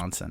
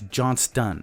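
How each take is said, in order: First: The name is said without a T sound. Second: The name is said with a T sound. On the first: The speaker calls it wrong. "I always default to" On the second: The speaker calls it right. "I've never pronounced the T correctly in your name"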